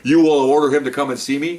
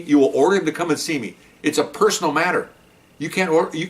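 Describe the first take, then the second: First: Rising disbelief at the order; mock-outraged rising question; incredulous question. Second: Falling, declarative tone on order; the order restated, flat and final; flat statement. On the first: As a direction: repeat the demand back as a question. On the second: Retold or imitated. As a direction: state the demand as fact. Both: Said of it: "they had a little bit of discussion".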